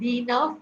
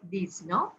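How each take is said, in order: First: Dix is said with no final consonant sound. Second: Dix ends in a z sound before neuf. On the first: The speaker calls it wrong. "it is not the nerve" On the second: The speaker calls it right. "but these nerve"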